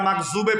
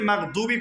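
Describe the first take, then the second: First: The middle consonant is a 'z' sound. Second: The middle consonant is a 'd' sound. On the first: The speaker calls it wrong. "যারা দতকে জ উচ্চারণ করেছে" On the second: The speaker calls it right. "যারা দতকে জ উচ্চারণ করেছে ... তার তেলাওয়াত হান্ড্রেড পার্সেন্ট ভুল"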